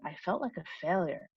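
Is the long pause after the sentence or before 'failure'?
after sentence. A long pause follows the whole sentence. The whole statement carries more emotion. "a really long pause after saying"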